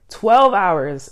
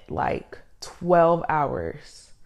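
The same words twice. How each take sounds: First: Twelve hit hard and louder; stress on Twelve. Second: Said in the usual way. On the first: Shown as a demonstration. Podcaster repeating to listeners, louder stress on Twelve. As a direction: land heavy on Twelve hours. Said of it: "I tell you". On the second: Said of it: "Twelve hours, I tell you".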